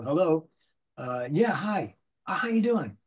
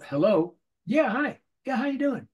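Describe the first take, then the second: First: Drawn-out hello with long pauses; slow phone answer. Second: Hello rattled off fast and higher; quick phone answer. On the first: Demoing a game actor answering a ringing phone. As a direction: take your time answering the phone. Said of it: "if the phone rings, you go". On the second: Showing how a cartoon actor must answer the phone. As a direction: snap it out with no air between. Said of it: "You have to go". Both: Shown as a demonstration.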